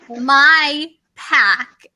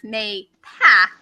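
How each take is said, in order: First: The first syllable sounds like 'my'. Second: The first syllable sounds like 'may'. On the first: Someone else's way of saying the name. "she was like my pack" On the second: The speaker's own way of saying the name. "I was pronouncing it May Pack"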